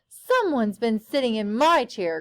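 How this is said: It is said in a deep growl.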